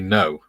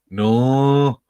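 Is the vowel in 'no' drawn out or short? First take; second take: short; drawn out. First: The vowel is short, in a neutral accent. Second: The vowel is drawn out, in a local accent. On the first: "they don't say no" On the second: "they draw a lot of their vowels out"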